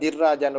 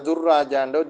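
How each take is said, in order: First: The first vowel is an 'i' sound. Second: The first vowel is a 'u' sound. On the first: "வாசிக்கிறல்ல" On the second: "வாசிக்கிறல்ல"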